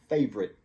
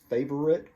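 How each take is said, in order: First: The word is said with two syllables. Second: The word is said with three syllables. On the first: "people take out the middle syllable" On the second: "it's really three syllables"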